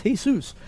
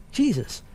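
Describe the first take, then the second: First: Jesus said as hay-SOOS; Spanish pronunciation. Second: Jesus said the English way, JEE-zus; English pronunciation. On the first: Showing how Spanish speakers say it, Jesus as hay-SOOS. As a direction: say Jesus the Spanish way, H sound and stressed ending. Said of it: "if you're Spanish". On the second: Explaining to listeners, Jesus as English JEE-zus. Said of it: "In English, we typically say". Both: Shown as a demonstration.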